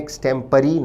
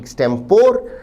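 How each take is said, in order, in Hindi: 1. शब्द 'ee' ध्वनि से खत्म होता है। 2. शब्द 'or' ध्वनि से खत्म होता है। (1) "शब्द का ब्रिटिश उच्चारण है" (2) "ना कि"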